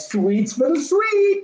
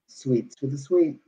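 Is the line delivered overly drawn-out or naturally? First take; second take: drawn-out; natural. First: It is slow, drawn-out and heavily overemphasized. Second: It is quick, casual and conversational in delivery. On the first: The line is treated as a big dramatic moment. The speaker calls it wrong. "all those people before me were like" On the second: The line is a throwaway remark. The speaker calls it right. "like you would normally say it in normal conversation"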